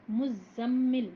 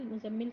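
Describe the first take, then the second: First: مزمل very slowly and louder, the ز doubled with the shadda; correct pronunciation. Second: مزمل said casually, the ز not doubled; مزمل run together without the shadda, the common mistake; wrong pronunciation. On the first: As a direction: stretch مزمل out and hold the doubled ز clearly. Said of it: "زا پہ بھی شدہ ہے". (مزمل بہت آہستہ، زا پر تشدید کے ساتھ صحیح تلفظ) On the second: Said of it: "ہم کو اس طرح نہیں پڑھنا چاہیے". (مزمل بغیر تشدید کے، غلط تلفظ) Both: Shown as a demonstration.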